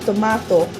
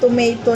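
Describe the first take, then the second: First: The word is said in a British accent. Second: The word is said in an American accent. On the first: "in British language, they call it tomato" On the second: "Yung tomato natin, 'di ba? American ano kasi tayo, American English tayo"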